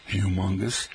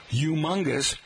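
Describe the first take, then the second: First: Humongous with a clear H, hyoo-mungus; h pronounced. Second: Humongous said yoo-mungus, no H; silent h. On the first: Host demonstrates the standard way, humongous with the H. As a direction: sound the h in humongous. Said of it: "most Americans pronounce the H". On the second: Host demonstrates New York speech, humongous without H. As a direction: drop the h in humongous. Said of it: "H as silent". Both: Shown as a demonstration.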